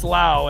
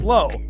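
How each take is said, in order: First: The vowel sounds like the one in 'cow'. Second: The vowel sounds like the one in 'go'. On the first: This is how the player himself says it. The speaker calls it right. "for him, it's Lau" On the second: This is how most people read the spelling. The speaker calls it wrong. "So most people, it's Low"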